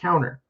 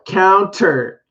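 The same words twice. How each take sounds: First: The T sound is almost dropped. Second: The T sound is clearly pronounced. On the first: "But when they talk quick, you're like, nah, you just said" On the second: "they'll try to correct you and they'll be like, no"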